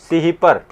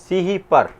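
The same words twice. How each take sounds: Both takes have the same delivery.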